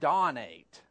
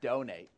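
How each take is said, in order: First: The first syllable sounds like 'dawn'. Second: The first syllable sounds like 'doe'. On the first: The speaker calls it wrong. "then you'd have pronounced it dawn-ate" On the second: The speaker calls it right. "It's donate"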